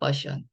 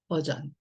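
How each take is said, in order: First: The last syllable begins with an sh sound. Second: The last syllable begins with a zh sound. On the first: The speaker calls it wrong. "그럼 이거 버션이라고 읽어야 되잖아요" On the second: The speaker calls it right. "근데 이 단어는 버션이 아니라 버전이에요"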